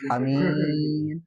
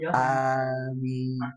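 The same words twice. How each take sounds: First: The first vowel is short, the second long. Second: The first vowel is drawn out long. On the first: It means peace. "Kalau A-nya pendek, min-nya panjang, damai" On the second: It asks that the prayer be granted. "Harusnya kan amin panjang"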